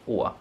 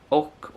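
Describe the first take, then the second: First: The word ends on a drawn-out vowel. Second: The word ends with a consonant sound. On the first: "We usually pronounce it å and not och" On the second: "You can pronounce it either way"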